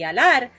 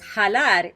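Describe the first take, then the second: First: It begins directly with the vowel, no consonant. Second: It begins with a harsh throaty j sound. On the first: "o una H muda" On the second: "podías usar el sonido de la J"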